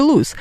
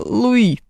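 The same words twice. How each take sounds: First: "Луис" with the final S clearly sounded; distinct final S. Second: "Луи" with no S at the end; silent final S. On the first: Host correcting the name in Hello, Dolly, final S pronounced. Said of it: "вполне себе отчётливый [name]". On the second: Host disputing how Louis is sung in Hello, Dolly, final S dropped. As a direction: end "Луи" on the open vowel. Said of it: "там вполне себе отчётливый [name]". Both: Shown as a demonstration.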